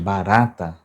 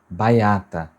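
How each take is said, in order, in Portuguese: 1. O som de R é pronunciado claramente. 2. O som de R é trocado por uma semivogal. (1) "ao invés de barata" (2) "Quando ela fala baiata"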